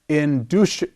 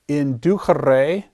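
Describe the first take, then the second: First: The c is said as a ch sound. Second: The c is said as a hard k sound. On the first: This is the church pronunciation. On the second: This is the classical pronunciation.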